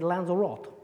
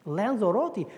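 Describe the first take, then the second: First: Lanzarote with a silent final e; "Lanzarote" cut to end in "rot"; alternative pronunciation. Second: Lanzarote ending in a clear "tee"; "Lanzarote" with the final e sounded; four-syllable pronunciation. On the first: Offers another pronunciation of it. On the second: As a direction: say Lanzarote as lan-za-ROH-tee. Queries how the place is pronounced. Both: Shown as a demonstration.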